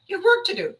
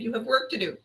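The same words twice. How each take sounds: First: "work" shot up high and louder, hammered; insisting now, pitch jumping up on "work"; exasperated emphasis. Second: Said in the usual way. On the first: Shown as a demonstration. Repeating it at officials who won't do their jobs, emphatic.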